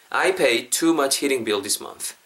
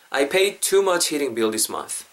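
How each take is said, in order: Both takes have the same delivery.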